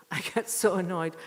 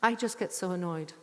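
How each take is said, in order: First: Repeating it through a laugh; half-laughing repeat of her complaint. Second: Said in the usual way. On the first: Real, not acted. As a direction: laugh as you say it again.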